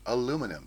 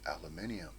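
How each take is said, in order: First: It is said the American way. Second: It is said the British way.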